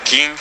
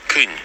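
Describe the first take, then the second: First: Кінь with a clear ee sound; кінь, vowel as unrounded i; Ukrainian i vowel. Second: Кінь with Ö in place of i; кінь, vowel shifted from i toward Ö; village Ö vowel. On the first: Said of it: "in Ukrainian we have I". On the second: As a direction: say кінь with a rounded Ö sound. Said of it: "but in Hlidno we have". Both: Shown as a demonstration.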